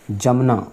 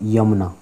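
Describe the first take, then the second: First: The word begins with a j sound. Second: The word begins with a y sound. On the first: The speaker calls it wrong. "जमुना कोई इसमें कोई शब्द नहीं है" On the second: The speaker calls it right. "जमुना तो क्या होता है, यमुना"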